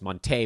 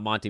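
First: The name ends in an 'ay' sound. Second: The name ends in an 'ee' sound. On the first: The speaker calls it right. "it's Monte Morris" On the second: The speaker calls it wrong. "everybody's been saying his name wrong and that it's not Monty"

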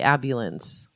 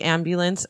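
First: The M and B sounds are swapped around. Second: The M and B sounds come in normal order. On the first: The speaker calls it wrong. "I mix up the B and the M" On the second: The speaker calls it right. "So you say ambulance"

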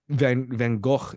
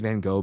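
First: The name is said the original Dutch way. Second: The name is said the common English way. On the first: "the actual proper pronunciation of his name" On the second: "people say Van Gogh because American, British, English"

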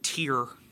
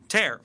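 First: The vowel sounds like the one in 'ear'. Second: The vowel sounds like the one in 'air'. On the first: It is the word for a teardrop. "Or like tear" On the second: It is the word meaning to rip. "Tear, like rip"

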